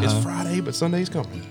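It is said in a Southern Baptist preacher voice.

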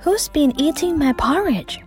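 It is said in a soft voice.

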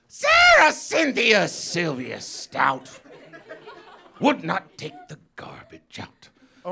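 It is read in an expressive performing voice. It is the start of the poem itself. "Then I do my poetry reading voice"

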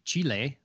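The name is said with a Spanish-style pronunciation. "As it would be in like Spanish or Portuguese"

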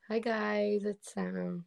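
The greeting sounds sad and forced.

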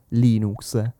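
The word is pronounced the Italian way. The speaker calls it right. "detto così in italiano"

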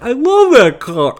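It is said in a snarky, joking way.

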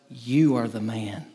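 It sounds accusing, like a charge.

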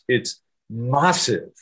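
Massive is said imitating a British manner. "They say it like this"

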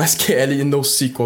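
The terms are pronounced with Brazilian Portuguese sounds. This is how people in Brazil say the terms. "No Brasil, acho que as pessoas falam"

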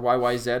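The final letter is said the Canadian way.

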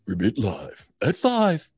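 It is said in a put-on radio announcer voice.

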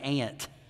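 It is said in a Southern American accent.

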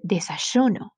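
The y sound is like sh. This is how it sounds in Argentina. "like shh"

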